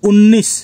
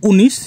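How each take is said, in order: First: উনিশ said as Hindi unnis with a long n; Hindi pronunciation. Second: Said in the usual way. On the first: Shown as a demonstration. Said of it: "হিন্দিতে উনিশ". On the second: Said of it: "Bangla উচ্চারণ উনিশ".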